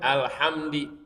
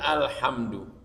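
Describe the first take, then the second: First: The word ends with an i vowel. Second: The word ends with an u vowel.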